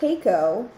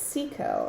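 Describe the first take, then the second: First: The name begins with a K sound. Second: The name begins with an S sound. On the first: The speaker calls it wrong. "I always call it Keiko" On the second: The speaker calls it right. "So it's Seiko"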